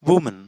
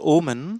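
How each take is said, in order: First: The word starts with a clear W sound. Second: The word starts with a vowel, no W. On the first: The speaker calls it right. "it's woman" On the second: The speaker calls it wrong. "It's not omen"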